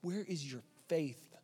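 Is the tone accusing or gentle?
accusing. It sounds accusing and harsh.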